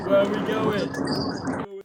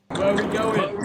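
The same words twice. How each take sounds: First: Drawn-out call. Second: Said in the usual way. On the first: Acted. Host stretching the question to rile up the crowd, slow drawn call. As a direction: stretch every word out slowly.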